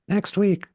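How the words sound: It is said in a bright, bubbly voice. "a little more bubblegummy"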